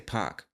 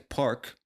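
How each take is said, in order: First: The R sound before the K is dropped. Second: The R sound before the K is pronounced. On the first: "somebody from the South might say park" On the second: "when I say park"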